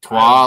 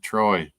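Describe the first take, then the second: First: It sounds like French trois, with no final y. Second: It sounds like English Troy, ending in a y. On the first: "like the number three" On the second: "or is it Troy? I doubt it's Troy"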